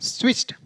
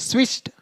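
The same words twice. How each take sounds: The two takes are said the same way.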